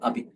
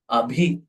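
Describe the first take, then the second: First: The b is said without a puff of air. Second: The b is said with a puff of air. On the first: The speaker calls it wrong. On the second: The speaker calls it right.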